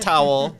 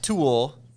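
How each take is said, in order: First: The name sounds like the word towel. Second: The name sounds like the word tool. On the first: "Not towel" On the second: "not tool"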